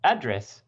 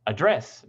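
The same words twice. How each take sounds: First: "Address" stressed on the first syllable, AD-dress; "Address" as the noun, AD-dress. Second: "Address" stressed on the second syllable, ad-DRESS; "Address" as the verb, ad-DRESS. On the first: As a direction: hit AD in "Address", let dress fall. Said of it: "If you put the primary stress on the first syllable". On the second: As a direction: reduce the A and land on DRESS in "Address". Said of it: "always on the second syllable". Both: Shown as a demonstration.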